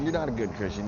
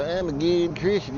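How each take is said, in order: First: Said in the usual way. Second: Higher, slow, smug put-on churchgoer voice. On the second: Vlogger mocking hypocritical Christians in a smug pious voice. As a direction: parody a self-righteous believer. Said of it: "I always love to sit and go".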